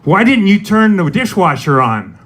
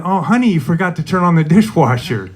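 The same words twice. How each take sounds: First: Higher-pitched, lightly put-on accusation; accusing question. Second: Sweet. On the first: Significant other blaming you over the dishwasher, accusing. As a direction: ask it as a pointed reproach. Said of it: "your significant other is like". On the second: Retold or imitated. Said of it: "quite a bit different than".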